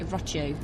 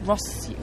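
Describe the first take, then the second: First: The name is said with an Italian pronunciation. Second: The name is said with a Spanish pronunciation.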